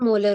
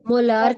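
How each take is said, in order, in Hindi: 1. दूसरा स्वर छोटी, हल्की ध्वनि है। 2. दूसरा स्वर लंबी 'aa' ध्वनि है। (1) "मोलर होता है" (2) "मोलार कुछ नहीं होता"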